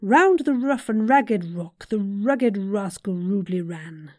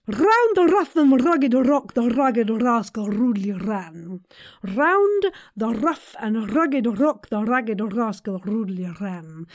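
First: Said in the usual way. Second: "Round" and "rough" with trilled rolled R. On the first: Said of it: "first without rolling R's". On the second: Shown as a demonstration. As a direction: roll every R in "rugged rock". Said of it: "let's try with the rolling those R's".

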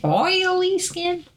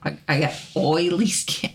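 First: "Oily skin?" drawled high and slow in Southern accent. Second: Said in the usual way. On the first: Shown as a demonstration. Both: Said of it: "My southern accent".

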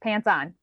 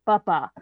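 First: Said in the usual way. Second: "buppa" as two loud babbled syllables; child's approximation. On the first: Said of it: "I heard pants on". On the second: Shown as a demonstration. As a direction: mimic pants on reduced to "buppa". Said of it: "He said buppa".

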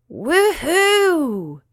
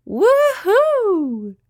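First: Star's whoop. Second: Very high, loud squealing whoop; little spider shrieking happily; Winky's whoop. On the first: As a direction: whoop with delight as you fly. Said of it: "cried the star". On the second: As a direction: squeal with joy on the ride. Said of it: "cried Winky". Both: A narrator's reading.

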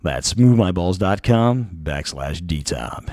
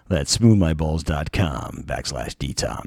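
First: Slow sultry ad read. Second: Slow, low sultry ad read. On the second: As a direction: purr it like a perfume ad. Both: Acted. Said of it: "Gotta work into my sultry voice".

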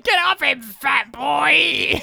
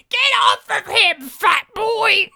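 First: High, loud screamed line; retold scream. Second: Shrill high scream, much higher and louder; screaming old lady. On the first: Old lady yelling at the bully again, high scream. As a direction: yell it like a crazy old lady. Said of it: "crazy old lady just screaming out". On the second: Retold or imitated. Old lady screaming at the bully, high piercing scream. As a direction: shriek it like a crazed stranger. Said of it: "her face screaming directly at you".

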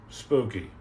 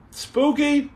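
First: "Spooky" dropped low and softer, falling; low answer. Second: "Spooky?" pitched high as a question. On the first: Streamer answers his own spooky, low and falling. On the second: Streamer toys with a viewer's word spooky, high questioning. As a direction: lift "Spooky" right up, playfully. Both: Pretend.

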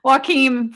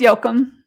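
First: Joachim said as wah-KEEM; American pronunciation. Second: Joachim corrected to YO-kum; Danish pronunciation. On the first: Guest allows a version for Americans, American pronunciation of Joachim. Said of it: "for American sake". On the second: Guest corrects host on the name, Danish pronunciation of Joachim. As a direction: say Joachim as YO-kum, first syllable stressed. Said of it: "No, it's Joachim". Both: Shown as a demonstration.

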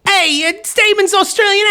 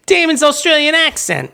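First: Put-on Australian accent slipping toward a New York gangster; mock Australian accent. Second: A lightly higher, steadier put-on Australian accent; careful Australian accent. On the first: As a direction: try an Aussie voice that drifts into Goodfellas. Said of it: "I actually am slipping into Goodfellas". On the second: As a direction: rein the Aussie accent back in, a bit higher. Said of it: "I've gotta be careful".

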